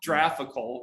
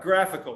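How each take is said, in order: First: It begins with a soft j sound. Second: It begins with a hard g sound. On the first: The speaker calls it wrong. "not graphical" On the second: The speaker calls it right. "g, g, graphical"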